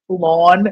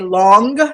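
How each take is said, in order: First: The final g sound is dropped. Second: The final g sound is pronounced. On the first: The speaker calls it wrong. "not pronouncing like G's" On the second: The speaker calls it right. "would it really kill you to say long?"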